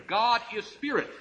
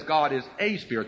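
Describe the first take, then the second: First: Higher-pitched reading, weight landing on "spirit"; stress on SPIRIT. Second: "a" said as a full "ay", lower pitch; stress on A. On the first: Preacher correcting the translation for listeners, lifted onto "spirit". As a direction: lift the phrase and land on "spirit". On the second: Preacher citing the wording he rejects, stressing "a". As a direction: lean on "a" in a low-pitched reading. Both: Shown as a demonstration.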